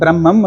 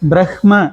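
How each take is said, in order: First: There is no h sound before the m. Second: An h sound is heard before the m. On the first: It is the everyday way of saying it. "யூஸ்வலா எப்படி சொல்லிட்டு இருக்கோம்னா பிரம்மம்" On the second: It is the way to say it when chanting mantras. "இஹ்"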